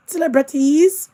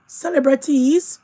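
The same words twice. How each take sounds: The two takes are said the same way.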